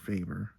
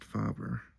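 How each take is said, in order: First: The first vowel is not like father's 'a'. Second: The first vowel sounds like 'a' in father. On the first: The speaker calls it wrong. "or Faber" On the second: The speaker calls it right. "it's pronounced Faber ... It's kind of like father"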